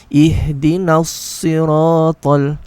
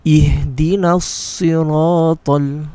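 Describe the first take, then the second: Both takes have the same delivery.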